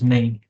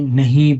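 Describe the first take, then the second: First: The word is said in a reduced casual form. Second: The word is said in its full careful form.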